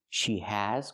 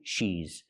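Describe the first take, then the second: First: Both words are said fully and separately. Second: The two words merge into one syllable. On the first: "She has got" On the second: "she has contraction"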